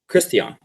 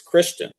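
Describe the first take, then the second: First: The name is said with German sounds. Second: The name is said with English sounds.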